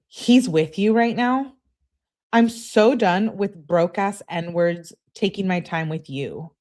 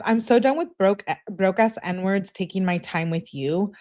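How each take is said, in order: First: Put-on slow, whiny girlfriend rant. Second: Said in the usual way. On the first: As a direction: drag it out in a whiny voice. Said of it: "that's a great whiny voice". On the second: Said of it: "she says".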